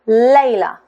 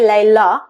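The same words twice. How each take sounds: First: The stress is on the first syllable. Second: The stress is on the second syllable. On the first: The speaker calls it right. "the stress is on the first sound" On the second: The speaker calls it wrong. "We can't say Layla, Layla, sounds very odd"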